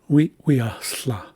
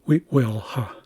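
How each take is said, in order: First: The final consonant is one lateral fricative sound. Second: The final consonant is split into L and H. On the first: The speaker calls it right. "the tilted L instead of the L H" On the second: The speaker calls it wrong. "which is not the correct pron pronunciation"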